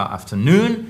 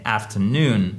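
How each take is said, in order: First: "afternoon" with only the final NOON stressed, rising; mauvaise accentuation. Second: "afternoon" slowly, secondary stress on AF, main on NOON, falling; deux accents toniques. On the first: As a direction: punch just the end of "afternoon". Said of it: "C'est pas afternoon". (« afternoon » accentué seulement sur la fin) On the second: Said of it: "c'est afternoon". (« afternoon » avec accent secondaire et primaire) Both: Shown as a demonstration.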